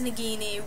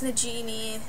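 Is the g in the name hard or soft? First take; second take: hard; soft. First: The g is said as a hard g sound. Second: The g is said as a soft j sound. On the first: The speaker calls it right. "the fact that it was Nagini really threw me off" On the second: The speaker calls it wrong. "I think of everything in terms of soft G's"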